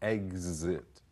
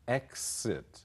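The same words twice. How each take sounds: First: The middle consonant is voiced, like gz. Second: The middle consonant is voiceless, like ks. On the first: "z 的音"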